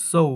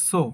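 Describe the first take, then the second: First: "so" gliding from o into oo; correct pronunciation. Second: "so" with a plain short o, no glide; common local pronunciation. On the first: Teacher modelling the correct word, "so" with gliding o-u. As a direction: say "so" as "soh-oo". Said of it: "এটা সঠিক উচ্চারণ হবে". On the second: Teacher showing how we say it, "so" with flat short o. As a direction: keep the o of "so" single and short. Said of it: "এটাকে আমরা বলি". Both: Shown as a demonstration.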